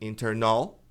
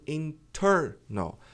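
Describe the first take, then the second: First: The stress is not on the second syllable. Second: The stress is on the second syllable. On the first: The speaker calls it wrong. "Não é internal" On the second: The speaker calls it right. "a sílaba forte aqui é o ter"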